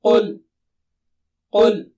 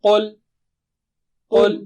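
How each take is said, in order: The two takes are said the same way.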